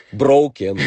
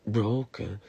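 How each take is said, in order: First: Broken blurted louder and higher, falling hard; mock bad attempt. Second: Retold coach's model broken, soft falling tune; broken said lightly, dropping softly at the end; coached intonation. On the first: Rapper retells his clumsy first try at broken. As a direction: overdo the word broken like an eager student. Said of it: "Я такой". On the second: Coach shows the wanted tune on broken. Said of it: "Амиран мне по строчке объяснял".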